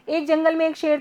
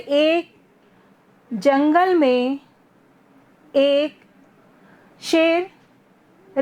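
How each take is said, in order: First: It is spoken very fast and rushed. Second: It is spoken very slowly with long gaps. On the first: The story becomes hard to follow. "बहुत जल्दी जल्दी बोला" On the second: The story becomes boring to listen to. "मैं ऐसी पूरी story अगर इसी वे में पढ़ सुनाऊंगी तो आपको इंटरेस्ट आएगा क्या?"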